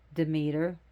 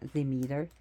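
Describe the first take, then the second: First: The name is said with an English pronunciation. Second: The name is said with a Greek pronunciation.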